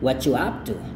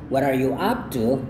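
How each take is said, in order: First: The r sound of 'are' is dropped. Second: The r sound of 'are' is kept. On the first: "Jadi R-nya itu hilang" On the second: "ketimbang Anda dengar"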